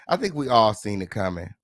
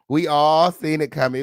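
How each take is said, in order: First: Said in the usual way. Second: All pushed out louder, falling; all punched, the rest trailing; stress on all. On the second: Real, not acted. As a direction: lean hard on the word all. Repeats line for emphasis.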